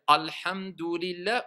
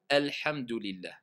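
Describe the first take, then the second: First: The word is pronounced heavy and emphatic. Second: The word is pronounced light and thin. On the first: The speaker calls it wrong. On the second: The speaker calls it right.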